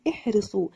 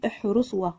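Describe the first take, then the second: First: احرصوا ending on a long "oo"; correct silent alif. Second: احرصوا و ending in a spoken "wa"; mispronounced silent letter. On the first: Teacher giving the right reading, احرصوا with the alif silent. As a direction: say احرصوا as ihrisu, nothing after the oo. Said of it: "وإنما نقول". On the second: Teacher warning against this reading, احرصوا و with final wa sounded. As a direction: say احرصوا و with an extra wa tacked on. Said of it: "لا نقول". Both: Shown as a demonstration.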